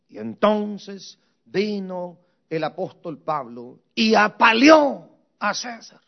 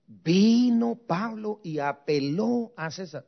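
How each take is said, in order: First: Misreading apaleó for apeló; the student's slip, apaleó a César read out as if it were right; mock misreading of apaleó. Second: Apeló said clearly and slowly, the right word; correcting the slip, slow apeló; slow careful apeló; correct reading. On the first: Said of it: "Pero, pero, pero, pero, brother, no es así". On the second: Shown as a demonstration. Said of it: "no es así".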